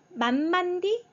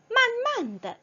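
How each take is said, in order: First: The last syllable ends in an 'ee' vowel. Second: The last syllable is a light toneless 'uh'. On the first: The speaker calls it wrong. "D가 아니에요" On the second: The speaker calls it right. "더라고 읽어주어야 돼요. 성조 없이 가볍게"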